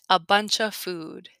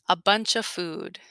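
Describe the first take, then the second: Both takes have the same delivery.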